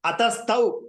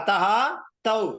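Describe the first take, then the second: First: The two words are run together as one. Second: The two words are said separately with a break. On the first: "அதஸ்தௌ இருக்குல்ல" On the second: "பிரிச்சு படிச்சேன்"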